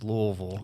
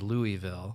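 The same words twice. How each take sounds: First: It is said the way city locals say it. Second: It is said the way Midwestern outsiders say it. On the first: The speaker has adopted the city's own way. The speaker calls it right. "all my friends got me. Now it's Louisville" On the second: The speaker was not yet from the city. The speaker calls it wrong. "I was from uh, the Midwest, and it was always Louisville"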